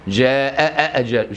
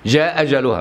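First: Two clear glottal stops are heard between words. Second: Only one glottal stop joins the two words. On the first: "تجيب همزتين بالإزهار في الاثنين" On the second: "همزة واحدة، يحذف الهمزة الأولانية ويثبت الثانية"

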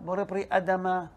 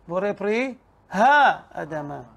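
First: The syllable ha is dropped before Adama. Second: The syllable ha is clearly said before Adama. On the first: The speaker calls it wrong. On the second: The speaker calls it right. "It is important to make sure to pronounce this syllable, ha, and not to omit it carelessly"

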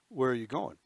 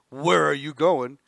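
First: It is said in a plain, neutral way. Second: It is said with a sharp, confrontational attitude.

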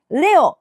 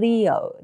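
First: It is said Japanese-style with an 'eh' vowel. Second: It is said English-style with an 'ee' vowel. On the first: The speaker calls it wrong. "レオではなく" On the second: The speaker calls it right. "E の音です。"

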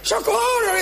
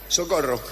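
First: It is cried out with real desperation. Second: It is said flatly, without real feeling. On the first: The actor has really lived through drowning. The speaker calls it right. "El que sí alguna vez se ahogó... y se acuerda bien" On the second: The actor has never lived through drowning. The speaker calls it wrong. "el que no se ahogó nunca... enseguida se nota"

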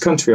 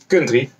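First: The word is said in a standard accent. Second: The word is said in a local accent. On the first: The speaker calls it right. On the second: The speaker calls it wrong.

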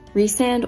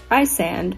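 First: The first syllable rhymes with 'reese'. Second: The first syllable rhymes with 'rise'. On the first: The speaker calls it right. "is actually pronounced Resand" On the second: The speaker calls it wrong. "the character I'm referring to as Rysand"

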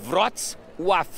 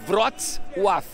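First: The name is said with native Polish sounds. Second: The same.

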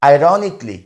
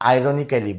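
First: The ending is reduced to a short 'kly'. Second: The ending is said with a full 'kally' syllable. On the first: The speaker calls it right. "এটা সঠিক উচ্চারণ হবে আইরনিকলি" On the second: The speaker calls it wrong. "এটাকে আমরা অনেকে আইরনিক্যালি বলি। এটা ভুল উচ্চারণ"

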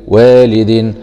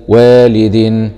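Both takes have the same delivery.

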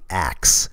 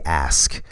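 First: The k sound comes before the s sound. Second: The s sound comes before the k sound. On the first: The speaker calls it wrong. "They don't say axe" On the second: The speaker calls it right. "they say ask"

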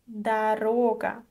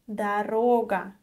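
The two takes are said the same way.

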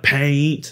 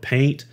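First: The word is said with heavy, drawn-out emphasis. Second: The word is said plainly, without extra force. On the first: "He would like paint. ... it's really emphasized like paint" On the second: "I would paint"

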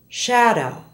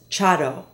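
First: The word begins with a soft sh sound. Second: The word begins with a sharp ch sound. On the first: The speaker calls it right. "Listen to the following SH words" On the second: The speaker calls it wrong. "is often said as chado"

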